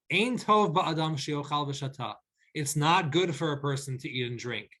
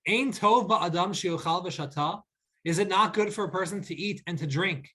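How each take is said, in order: First: "Ein tov ba'adam" stated with a falling tune on "tov"; a plain firm statement, falling at the end; flat declarative. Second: "Ein tov ba'adam" with a rising questioning tune on "tov"; a rhetorical lilt, asking aloud; inquisitive reading. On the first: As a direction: state it flatly, no question. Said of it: "read it instead as a declarative statement". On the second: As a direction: read it as a wondering question. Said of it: "let me read that again". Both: Shown as a demonstration.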